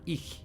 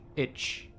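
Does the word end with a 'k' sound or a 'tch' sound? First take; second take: k; tch. First: It ends with a 'k' sound, like eek. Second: It ends with a 'tch' sound, like itch. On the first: The speaker calls it right. "it's eek, right? ... it's like E E K, but with a little bit of a in it" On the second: The speaker calls it wrong. "But it's not itch"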